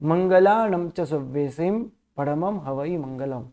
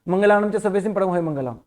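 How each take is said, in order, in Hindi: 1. सव्वेसिम के बाद एक छोटा विराम आता है। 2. वाक्यांश बिना किसी विराम के चलता है। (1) "मैंने दोनों पद मिक्स नहीं किए" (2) "ऐसे मैंने नहीं बोला"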